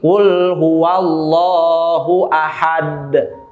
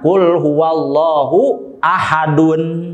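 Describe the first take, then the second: First: The last word ends on a bare consonant. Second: The last word ends with an added 'un'. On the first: The reading stops at the end of the verse. "ketika bacaannya diwakofkan, diberhentikan, maka itu harus dibaca sukun" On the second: This is the original form before stopping. "Asalnya kan"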